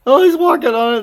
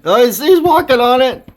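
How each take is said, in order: First: High, loud delighted repeat; excited. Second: High, loud delighted exclaiming; excited. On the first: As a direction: shout it again with glee. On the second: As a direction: burst out in amazed glee. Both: Real, not acted. Bird standing on frozen bowl.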